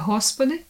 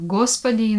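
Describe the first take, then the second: First: The word begins with a breathy H sound. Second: The word begins with a hard G sound. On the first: This is the Ukrainian pronunciation. "in Ukrainian it's a Hospody" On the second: This is the Russian pronunciation. "word Gospody in Russian"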